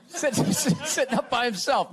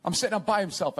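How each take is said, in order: First: Laughing. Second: Said in the usual way. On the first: Real, not acted. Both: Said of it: "I should say, not on himself".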